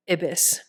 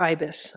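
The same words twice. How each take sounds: First: "Ibis" said IB-iss, short i as in "bib"; short-i pronunciation. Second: "Ibis" said EYE-bis, long i as in "eye"; long-i pronunciation. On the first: Tarot reader trying a card's name, "Ibis" as IB-iss. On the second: Tarot reader offering another reading, "Ibis" as EYE-bis. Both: Shown as a demonstration. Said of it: "I don't know how to say it".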